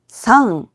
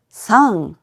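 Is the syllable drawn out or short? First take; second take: short; drawn out. First: The syllable is said short and clipped. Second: The syllable is drawn out for an extra beat. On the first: The speaker calls it wrong. "상이 아니라" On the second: The speaker calls it right. "길게 끌고 가주셔야 돼요"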